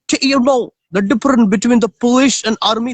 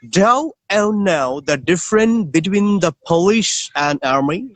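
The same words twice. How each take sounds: First: It is spoken in a South African accent. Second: It is spoken in a British accent. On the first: "This is South African" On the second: "is the British"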